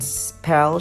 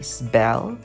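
First: The s is followed by a plain p sound. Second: The s is followed by a b-like sound. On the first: "And spell" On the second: "should be spell, S-B"

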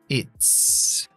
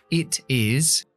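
First: It is said as one contracted syllable. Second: It is said as two full words.

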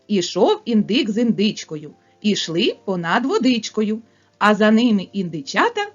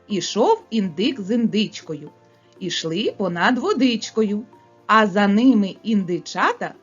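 First: It is spoken at the fastest pace. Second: It is spoken at a faster pace. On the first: "ще швидше" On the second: "Швидше, малята, промовляємо"

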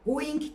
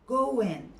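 First: The final g is clearly pronounced. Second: The final g is barely heard. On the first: The speaker calls it wrong. "going değil yani" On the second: The speaker calls it right. "o sondaki g'yi belli belirsiz okuyoruz"

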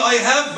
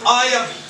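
First: The h of have is clearly pronounced. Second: The h is dropped and the words link. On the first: "بدل ما أقول I have" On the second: "بشيل ال H أقول I have"

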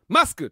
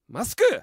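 First: The stress is on the first syllable, ma. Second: The stress is on the last syllable, ku.

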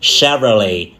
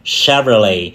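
First: The stress is on the first syllable. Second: The same.

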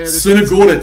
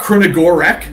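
First: The name begins with an 's' sound. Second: The name begins with a 'kr' sound. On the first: The speaker calls it right. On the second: The speaker calls it wrong.

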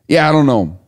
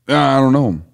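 First: It has little Southern accent. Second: It has a heavy Southern accent.

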